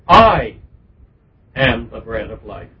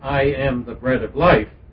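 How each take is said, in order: First: The word I carries strong stress. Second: The word I carries no special stress. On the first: The speaker calls it right. "putting a particular accentuation on the pronoun" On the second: The speaker calls it wrong. "Instead of saying"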